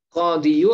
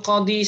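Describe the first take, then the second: First: The word ends with a 'yu' sound. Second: The word ends with a plain 'i' sound. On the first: The speaker calls it wrong. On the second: The speaker calls it right.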